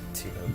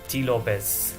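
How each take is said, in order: First: The name is said the plain English way. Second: The name is said the Spanish way. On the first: "like soaps"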